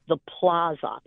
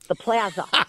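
First: It is said in a New York accent. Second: It is said in a Buffalo accent. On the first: The speaker calls it right. "It's the Plaza" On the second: The speaker calls it wrong. "You cannot do the Buffalo"

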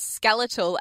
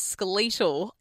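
First: Skeletal is said the usual American way. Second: Skeletal is said the Australian way.

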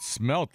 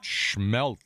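First: The word begins with a plain s sound. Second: The word begins with a sh sound. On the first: The speaker calls it right. "you pronounced it smelt like it should be" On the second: The speaker calls it wrong. "not schmelt"

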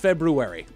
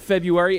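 First: The word is said as 'Feb-roo-ary' with an 'r' after 'Feb'. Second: The word is said as 'Feb-yoo-ary' with no 'r' after 'Feb'. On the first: The speaker calls it right. "It is February" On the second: The speaker calls it wrong. "It is not February"

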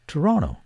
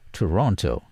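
First: The t after the n is silent. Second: The t after the n is pronounced. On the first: This is how local residents say the city name. "the locals pronounce it as Toronto" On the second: This is how outsiders say the city name. "some newscasters and foreigners pronounce it as Toronto"

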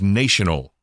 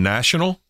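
First: The first syllable sounds like 'nation'. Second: The first syllable sounds like 'nash'. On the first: "It's a nation" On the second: "instead of saying national"

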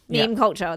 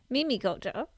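First: The first word has one syllable, meem. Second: The first word has two syllables, mee-mee. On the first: "That doesn't sound right" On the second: "I saw it was Mimi"

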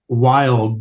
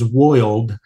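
First: The word has a standard vowel sound. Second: The word has a rural 'oi' vowel sound. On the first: "instead of saying wild" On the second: "the farmer says woiled"

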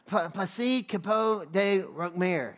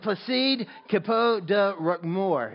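First: The word 'de' sounds like 'day'. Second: The word 'de' sounds like 'duh'. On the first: The speaker calls it wrong. "And I said day" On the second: The speaker calls it right. "it's supposed to be duh"

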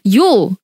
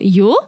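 First: It is said sharply and emphatically. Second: The pitch rises at the end, questioning. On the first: The speaker is exclaiming. "Is an exclamation" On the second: The speaker is asking something. "if you do yo, that's a question"

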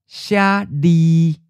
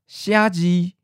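First: The second syllable starts with an l sound. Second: The second syllable starts with a j sound. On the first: "le is just easier to say than j" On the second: "instead of Xiaji for to write"

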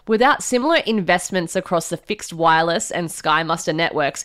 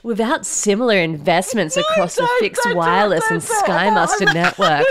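First: It is read in a plain, ordinary voice. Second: It is read in a put-on sultry voice. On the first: The speaker calls it right. "Do it normal, please do it normal" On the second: The speaker calls it wrong. "I'll read it in a sexy voice"

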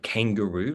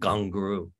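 First: It is said in the standard English way. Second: It is said in the traditional local way. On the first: The speaker calls it wrong. "not kangaroo, like the English British proper way of speaking" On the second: The speaker calls it right. "pronounce it more gungaroo"

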